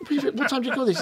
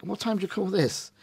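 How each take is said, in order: First: Higher and sharper, like a wife scolding a late husband; hammed-up nagging partner, pitched high; nagging spouse. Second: Scolding spouse. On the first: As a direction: scold him as if he came home late for dinner. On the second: Retold or imitated. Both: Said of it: "tells him off as though somehow it's his other half's come home".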